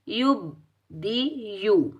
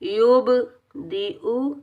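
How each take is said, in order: First: The b sound is missing, with no bounce. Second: The b sound is clearly bounced and echoing. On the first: The speaker calls it wrong. "अक्सर लोग कैसे पढ़ते हैं, ... ऐसे नहीं पढ़ना।" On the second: The speaker calls it right. "बा पर कलकला करना है।"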